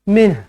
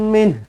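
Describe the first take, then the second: The two takes are said the same way.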